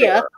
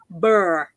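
First: The vowel rhymes with care. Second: The vowel rhymes with fur. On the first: It names an ordinary bear. "I'd like to say that I actually do say bear" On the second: It names a child's particular stripy teddies. "And they are called burr"

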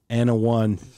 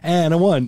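First: The punchline is said flatly, without energy. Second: The punchline is said in a lively, animated way. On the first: The speaker calls it wrong. "Because you're not like Anna 1, Anna 2. You can't say it that way" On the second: The speaker calls it right. "You have to be like Anna 1, Anna 2"

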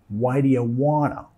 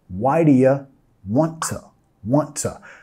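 First: 'Want to' merges into the faster 'wanna'. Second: The two t's link and 'to' is reduced. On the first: "O aún más rápido, wanna" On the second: "reduciendo el to y también vinculando los dos t's"

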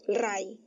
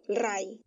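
The two takes are said the same way.

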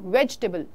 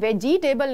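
First: The middle vowel is skipped, giving three syllables. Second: The middle vowel is pronounced, giving four syllables. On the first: The speaker calls it right. "आपको इस ई को कर देना है skip" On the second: The speaker calls it wrong. "आपको कभी भी वेजिटेबल नहीं"

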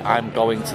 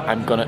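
First: Going to is said in full as two words. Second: Going to is reduced to gonna. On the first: "But I wouldn't say" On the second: "I'd say"

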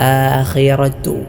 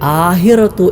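First: The middle consonant is a harsh rasping kh. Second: The middle consonant is a soft breathy h. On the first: The speaker calls it right. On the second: The speaker calls it wrong.

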